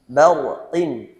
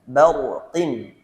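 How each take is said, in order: The two takes are said the same way.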